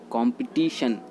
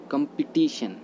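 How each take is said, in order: First: कॉम्पिटिशन starting with open 'kom'; कॉम्पिटिशन with rounded first o; common mispronunciation. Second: कॉम्पिटिशन starting with short 'kum'; कॉम्पिटिशन with schwa in the first syllable; correct pronunciation. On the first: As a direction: say कॉम्पिटिशन as 'KOM-pi-TI-shun'. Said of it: "कॉम्पिटिशन नहीं बोलते हैं". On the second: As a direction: say कॉम्पिटिशन as 'kum-pi-TI-shun'. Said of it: "इसको बोलते हैं". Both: Shown as a demonstration.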